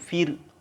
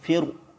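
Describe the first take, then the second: First: The r is pronounced light and thin. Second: The r is pronounced heavy and thick. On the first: "Baru nanti saya baca tipis" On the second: "saya baca tebal dulu ya"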